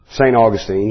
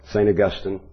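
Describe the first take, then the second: First: Put-on Augustine said AW-gus-teen, stress first; pronunciation AW-gus-teen. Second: Augustine said uh-GUS-tin, stress on GUS; pronunciation uh-GUS-tin. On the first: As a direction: say Augustine with a long final -teen. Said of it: "usually how people, refer to him". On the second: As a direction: say Augustine with a short, weak ending -tin. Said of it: "depends on, I guess, where you're from". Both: Shown as a demonstration.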